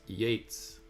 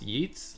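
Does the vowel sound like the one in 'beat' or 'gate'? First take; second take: gate; beat. First: The vowel sounds like the one in 'gate'. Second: The vowel sounds like the one in 'beat'. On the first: "like the word gate or gates" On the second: "like the word beat"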